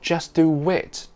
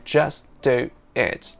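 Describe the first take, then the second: First: A full w sound joins do and it. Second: No w sound joins do and it. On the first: "It's not just do wit. The w is very subtle" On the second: "We don't say just do it"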